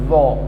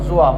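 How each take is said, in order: First: The letter name is said softly and lightly. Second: The letter name is said heavily, with a rounded vowel. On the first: The speaker calls it right. "you have to za also very softly" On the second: The speaker calls it wrong. "not zoa"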